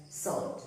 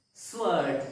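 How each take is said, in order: First: "sword" with silent W, like sord; correct pronunciation. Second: "sword" with the W sounded, like swurd; wrong pronunciation. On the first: Teacher showing learners the correct way, "sword" with W silent. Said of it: "it is pronounced as sword". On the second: Teacher showing learners the mistake, "sword" with W voiced. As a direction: say "sword" with an audible W after the S. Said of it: "It is not". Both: Shown as a demonstration.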